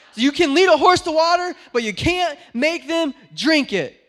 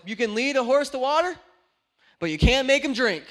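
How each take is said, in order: First: Much louder, higher exasperated yell of the saying; mad outburst. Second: Loud, fed-up retort to grandma; mad outburst. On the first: Preacher replaying his angry words to grandma, hammed-up yell. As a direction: hurl the proverb out, fed up. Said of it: "That's how mad I was". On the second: Preacher retelling snapping at his grandma, mock fed-up. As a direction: fling the old saying out in frustration. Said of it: "I was so mad". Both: Retold or imitated.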